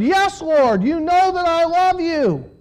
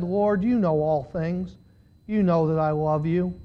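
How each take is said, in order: First: High, insistent declaration; emphatic insistence. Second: Low, subdued, wounded answer; hurt reply. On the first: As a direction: insist with feeling, pitched well up. Peter's emphatic second answer. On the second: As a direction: answer quietly, low and heavy-hearted. Hurt Peter answering third time. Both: A narrator's reading.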